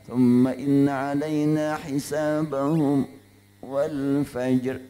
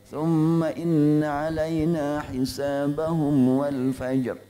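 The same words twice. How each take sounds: First: A brief breathless stop comes before 'wal fajr'. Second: 'Hisabahum' runs straight into 'wal fajr'. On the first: "Boleh begitu saktah" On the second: "Atau ... untuk Warash"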